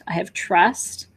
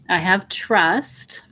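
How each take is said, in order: First: It is said at a normal speaking pace. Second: It is said slowly and deliberately.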